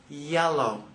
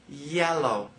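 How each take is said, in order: Both takes have the same delivery.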